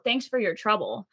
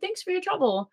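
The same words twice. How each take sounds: First: It sounds bitter and sarcastic. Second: It sounds warm and sincerely grateful. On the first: The speaker resents the problems the other person caused. "Kind of flipping that" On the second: The speaker is genuinely thankful for the help. "that's usually like a nice thing to say to people"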